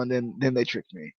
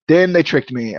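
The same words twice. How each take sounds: First: Muttered. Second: "Then they tricked me" said with stress on "tricked"; mock-betrayed emphasis on "tricked"; emphatic repeat. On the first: Repeats complaint, first muttered. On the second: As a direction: lean hard into "tricked" the second time. Repeats complaint, second emphatic. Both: Real, not acted.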